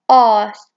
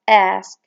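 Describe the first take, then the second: First: It is said in a British accent. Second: It is said in an American accent. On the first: "in British, they say it as ask" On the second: "in American, they say it as ask"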